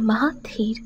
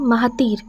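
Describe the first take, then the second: First: The middle consonant is aspirated and said slowly. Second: The middle consonant is a plain, unaspirated t. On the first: The name is said with tenderness and care. "খানিকটা সময় নিয়ে বড্ড যত্ন করেই উচ্চারণ করে" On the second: This is how everyone else says the name. "অন্য সবাই উচ্চারণ করে মাহাতির"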